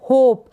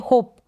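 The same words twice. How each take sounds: First: होप louder, with a lengthened प; emphatic होप, drawn out to a long final प. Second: होप said short, with a quick प; होप without lengthening the final प. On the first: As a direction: hold the closing प in होप a little longer. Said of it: "थोड़ा लंबा pronounce करेंगे". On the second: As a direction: cut the प in होप short, as the wrong example. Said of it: "आप ऐसे नहीं पढ़ सकते". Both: Shown as a demonstration.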